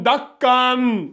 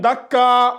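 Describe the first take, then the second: First: The word ends with an n sound. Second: The word ends with a long a vowel. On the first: The speaker calls it wrong. "au lieu de lire dakkan, dakkan, non" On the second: The speaker calls it right. "vous allez remplacer le dernier là par le mad"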